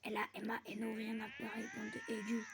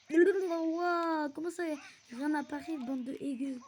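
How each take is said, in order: First: Tongue-tied stumbling. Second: Loud, high, incredulous yell; baffled outburst. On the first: Gamer fumbling a line on camera, tongue-tied. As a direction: trip over the words, pitch leaping on the last. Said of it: "j'ai bégayé de malade". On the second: Gamer repeating their own garbled words, baffled shout. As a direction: blurt it back loudly in disbelief. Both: Real, not acted.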